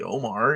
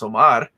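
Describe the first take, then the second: First: The name is said in an anglicized way. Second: The name is said in a native-style way. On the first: This is how people around him usually say it. The speaker calls it wrong. "My name's not really Omar" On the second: This is the name's proper pronunciation. The speaker calls it right. "It's pronounced Omar"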